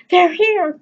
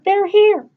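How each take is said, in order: First: High, loud shout of joy; excited cry. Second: Even higher, louder joyful shout; excited cry, repeated. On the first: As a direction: call it out as the guests arrive. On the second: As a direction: keep shouting with glee. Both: Acted. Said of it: "she cried".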